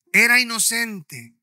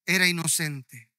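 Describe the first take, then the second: First: Era inocente, said louder and slower; a mournful crowd's louder, slower cry; louder, slow repeat. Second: Said in the usual way. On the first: Retold or imitated. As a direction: lean in hard on the second era inocente.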